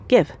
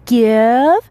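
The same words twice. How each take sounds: First: The word is whispered softly. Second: The word is said aloud, not whispered. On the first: "just whisper" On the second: "the way other people do it"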